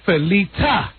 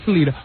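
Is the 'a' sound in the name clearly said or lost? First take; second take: clear; lost. First: The 'a' vowel in the name is clearly said. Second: The 'a' vowel in the name is lost. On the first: The speaker calls it right. "my name is Felita" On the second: The speaker calls it wrong. "not Felita"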